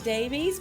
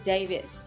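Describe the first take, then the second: First: The name ends with an 'eez' sound. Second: The name ends with an 'iss' sound. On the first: This is the form the speaker uses. "So I go by Davies" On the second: This is the form used in Wales. "if you're actually back in Wales, Davies, even with the E, is Davis"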